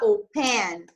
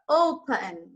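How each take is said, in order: First: The stress is on the last syllable. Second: The stress is on the first syllable. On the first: The speaker calls it wrong. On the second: The speaker calls it right.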